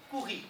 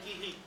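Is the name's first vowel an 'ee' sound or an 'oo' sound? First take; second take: oo; ee. First: The name is said the Portuguese way, with 'oo'. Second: The name is said the French way, with 'ee'. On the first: "ponto curri, tá bom" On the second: "em francês a pronúncia seria kiri"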